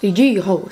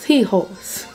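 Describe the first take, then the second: First: The word begins with a hard G sound. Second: The word begins without any G sound. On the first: The speaker calls it wrong. "Je le dis pas de la bonne façon" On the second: The speaker calls it right. "faut pas qu'on prononce le G"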